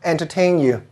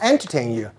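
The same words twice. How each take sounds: First: The stress is on the last syllable. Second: The stress is on the first syllable. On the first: The speaker calls it right. "I want to entertain you" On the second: The speaker calls it wrong. "not entertain you. We don't put the stress in the front"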